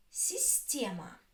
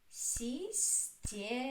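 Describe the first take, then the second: First: Said in the usual way. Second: "Система" slowly, in three separate syllables. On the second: Shown as a demonstration. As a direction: stretch out си, сте, ма in "Система". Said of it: "Which one is stressed?".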